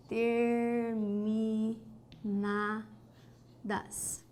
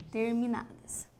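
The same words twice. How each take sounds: First: "Terminadas" very slow and soft, syllables stretched. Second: Said in the usual way. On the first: Shown as a demonstration. Teacher writing a word down, "Terminadas" syllable by syllable. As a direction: softly draw out each syllable of "Terminadas". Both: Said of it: "Vamos colocar aqui".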